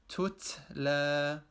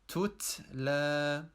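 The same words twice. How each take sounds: First: The second t has too much air, nearly s. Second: The same.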